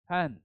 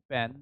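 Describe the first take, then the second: First: The p is said with a puff of air. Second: The p is said without a puff of air. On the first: The speaker calls it right. "it is pen. Slightly heard sound should be added" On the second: The speaker calls it wrong. "it is not pen"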